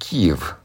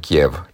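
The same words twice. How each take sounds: First: The name is pronounced in the form Kyiv. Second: The name is pronounced in the form Kiev. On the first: This is the Ukrainian form of the name. "ucrainenii scriu și pronunță Kiev" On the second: This is the Russian form of the name. "toponimul Kiev este felul în care scriu și pronunță rușii"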